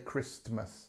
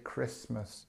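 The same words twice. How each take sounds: First: A T sound is pronounced in the middle of the word. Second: No T sound is pronounced in the middle of the word. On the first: The speaker calls it wrong. "we don't say Christmas" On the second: The speaker calls it right. "We say Christmas, ... no T and mus"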